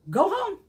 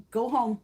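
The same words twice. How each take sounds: First: Shouted order. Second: Said in the usual way. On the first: Retold or imitated. Acted hospital worker telling patients off.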